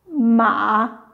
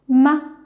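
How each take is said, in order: First: The pitch dips low, then rises again. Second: The syllable is short and light in pitch.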